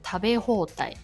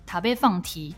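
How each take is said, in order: First: The ending is read with Japanese sounds. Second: The ending is read with Mandarin sounds. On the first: The speaker calls it right. "吃到饱的" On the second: The speaker calls it wrong. "你念成塔贝放题，日本听得懂有鬼啦"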